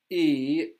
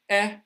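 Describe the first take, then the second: First: The vowel is long, as in see. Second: The vowel is short, as in bed.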